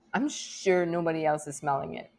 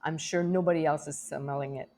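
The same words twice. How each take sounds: First: "sure" lifted in pitch at the start; stress on SURE. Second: Said in the usual way. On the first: Real, not acted. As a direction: lean on "sure", then let the rest fall. Repeats the line with new emphasis.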